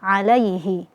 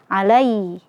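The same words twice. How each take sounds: First: The h sound is clear and fully articulated. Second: The h sound is faint and barely heard. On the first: The speaker calls it right. "Dijelaskan, disempurnakan makhrajnya" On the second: The speaker calls it wrong. "tidak terdengar jelas ya makhraj daripada huruf H-nya"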